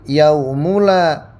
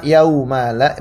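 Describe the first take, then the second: First: The vowel after the m is 'u'. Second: The vowel after the m is 'a'. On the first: "dengan mendomahkan mim" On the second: "mimnya di fathah"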